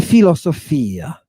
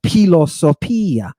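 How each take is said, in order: First: Said in the usual way. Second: "filosofia" said with P for each F, "pilosopia"; aspirated P. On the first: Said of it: "ninety-nine percent of the classes". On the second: Retold or imitated. Teacher quoting one instructor's pronunciation, aspirated P. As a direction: swap both F sounds in "filosofia" for puffed P. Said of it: "This is really an aspirated P".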